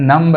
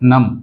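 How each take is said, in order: First: A b sound is heard at the end. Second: No b sound is heard at the end. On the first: The speaker calls it wrong. "नम्ब गलत है" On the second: The speaker calls it right. "Right"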